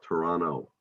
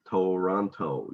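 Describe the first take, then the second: First: The second T is dropped. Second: The second T is clearly pronounced.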